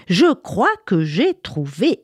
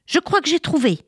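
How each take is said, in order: First: Slower, drawn-out repeat. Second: Put-on high, bright cry of a girl with an idea; excited cry. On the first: Acted. Little girl repeating her idea to the village children, slow and proud. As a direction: stretch the words, savouring the idea. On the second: Little girl announcing her idea to the children, excited cry. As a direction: shout it out like a sudden discovery. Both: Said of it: "s'écria".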